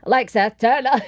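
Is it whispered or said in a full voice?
full voice. It is said aloud in a full voice.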